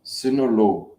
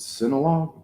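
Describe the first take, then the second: First: "Sinulog" with a clear o and the final g dropped; copied local pronunciation. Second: "Sinulog" with an unstressed middle vowel and a hard final g; own pronunciation. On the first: Shown as a demonstration. Husband repeating after his wife, copied pronunciation of "Sinulog" as sin-o-lo. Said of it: "How do you pronounce that?". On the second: Real, not acted. Husband checking the festival's name with his own pronunciation of "Sinulog", SIN-uh-log. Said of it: "Me and my pronunciation".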